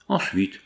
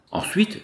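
First: Low-key, falling feverish question; feverish asking. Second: High-pitched, surprised question; astonished echo. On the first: Jealous husband asking his friend for more, subdued feverishness. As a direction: press for more with restrained fever. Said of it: "demanda Pascal fiévreusement". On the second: Friend puzzled that his secret made little effect, astonished. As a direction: echo it back high, in disbelief. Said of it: "étonné de voir sa confidence produire si peu d'effet". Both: A narrator's reading.

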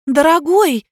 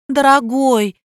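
First: High louder call of dear; calling after him. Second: Insistent call. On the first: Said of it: "кинулась за ним Надя". (окликает мужа, выше и громче) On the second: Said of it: "не отставала от него Надя". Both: A narrator's reading.

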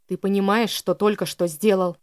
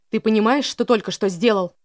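First: Hissed through teeth. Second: Angry shout. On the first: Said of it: "процедил ещё раз Элиас". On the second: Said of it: "прикрикнул Элиас". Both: A narrator's reading.

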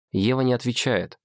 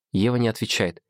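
The two takes are said the same way.

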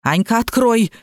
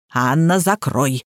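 First: Mildly barked order; lightly voiced bossy granny; barking. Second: Lower, slow imperious order; drawn-out, low granny command. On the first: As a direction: give a short, sharp command. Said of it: "рявкнула баба Маша". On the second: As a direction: order her slowly and deeply. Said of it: "распорядилась баба Лена". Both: A narrator's reading.

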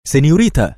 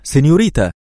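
First: Higher, louder call after a departing lady; calling after her. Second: Higher, louder second call of سينيوريتا; repeated call. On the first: Shopkeeper runs after the woman, calling loudly. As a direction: shout after her as she walks away. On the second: Shopkeeper still chasing the woman, calling louder. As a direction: call her back with rising urgency. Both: A narrator's reading. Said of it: "وعدا خلفها هاتفا".

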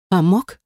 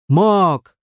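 First: Startled, challenging question; exclaimed question. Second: Short growled retort. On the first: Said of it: "воскликнула она". (воскликнуть с вопросом) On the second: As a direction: growl the admission back. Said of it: "прорычал он". (прорычать в ответ) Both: A narrator's reading.

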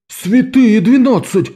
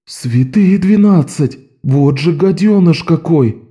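First: «двенадцать» высоко и протяжно, медленно, с падением; театрально ахнуть; наигранное изумление. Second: «двенадцать» высоко и медленно, с падением; ахнуть от возмущения; ахнула. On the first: Calo exclaims. (изумлённый возглас Каллы) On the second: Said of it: "ахнула Амбразина Стролла". (Стролла ахает, узнав о краже) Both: A narrator's reading.

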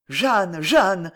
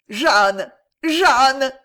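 First: Mild anguished cry of her name; panting cry. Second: Loud, rising howl of her name; anguished howl. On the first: Maréchal interrupting Jeanne's confession, mild panting cry. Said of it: "cria le maréchal Pantelan". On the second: Maréchal cutting off Jeanne, loud anguished howl. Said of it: "hurla le maréchal". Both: A narrator's reading.

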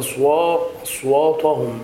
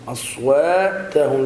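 First: أصواتهم with thick, dark "waa-to"; mistaken heavy ta. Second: أصواتهم slowly, long waa and thin "ta"; correct light ta. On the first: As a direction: imitate the error, thickening ت in أصواتهم. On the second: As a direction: draw out أصواتهم keeping ت light. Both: Shown as a demonstration. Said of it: "لا تقل".

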